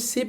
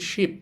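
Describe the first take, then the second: First: The word begins with a plain s sound. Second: The word begins with an sh sound. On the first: The speaker calls it wrong. "এখানে কিন্তু শিপ বলতেছি না" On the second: The speaker calls it right. "শয়ের মতো বলতেছি"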